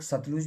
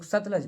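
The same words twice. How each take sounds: First: सतलुज, with a short "u" in the last syllable; alternative pronunciation. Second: सतलज, with a short "a" in the last syllable; teacher's own pronunciation. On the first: Teacher showing students how some people say it, सतलुज with "-luj". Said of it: "pronunciations की बात है". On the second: Teacher showing students the form he uses, सतलज with "-laj". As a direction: say सतलज ending in "-laj", not "-luj". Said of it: "मैं सतलज बोलता हूँ". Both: Shown as a demonstration.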